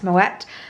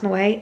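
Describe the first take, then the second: First: The final T is pronounced. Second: The final T is silent. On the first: The speaker calls it right. "it is pronounced Moet" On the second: The speaker calls it wrong. "It is not pronounced Moet"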